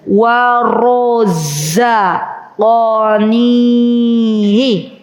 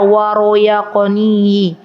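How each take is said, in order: First: The middle consonant is a z sound. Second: The middle consonant is a y sound. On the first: The speaker calls it right. "za bukan ya" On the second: The speaker calls it wrong. "Orang Jawa biasanya za jadi ya"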